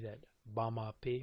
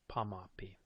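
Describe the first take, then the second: First: The word begins with a voiced B sound. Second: The word begins with a voiceless P sound. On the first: This is how northern speakers say it. "If you're in the north, they tend to favor that B" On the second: This is how southern speakers say it. "or in the south, that P"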